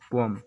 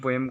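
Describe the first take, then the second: First: The second vowel is a weak 'uh' sound. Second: The second vowel is a clear 'eh' sound.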